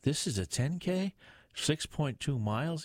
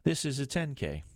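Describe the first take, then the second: First: Higher-pitched dismayed question; groaned question. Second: Higher-pitched emphatic statement, falling at the end; seriously insistent. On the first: Detective learning the race is twice as long, groaned. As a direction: question THIS IS A TEN K in mild dismay. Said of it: "Lamond groaned". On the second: Sergeant correcting his boss about the race, seriously insistent. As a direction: press the fact home on THIS IS A TEN K. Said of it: "No, seriously". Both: A narrator's reading.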